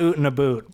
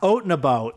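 First: The vowel in 'out' sounds like 'oot'. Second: The vowel in 'out' sounds like 'oat'. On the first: The speaker calls it wrong. "It's not oot and a boot" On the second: The speaker calls it right. "Oat and a boat. That I'm confident about"

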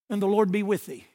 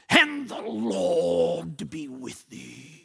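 First: It is said in a plain, ordinary voice. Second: It is said in a low, deep, guttural voice.

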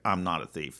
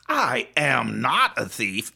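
First: It sounds calm and dismissive. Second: It sounds angry and indignant.

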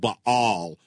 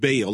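First: The word is said with a guttural throat sound. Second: The word is said without a guttural throat sound. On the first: This is the original, harder way. "that Baal thing with that guttural throat sound" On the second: This is the usual English way. "In English, We pronounce it Baal"

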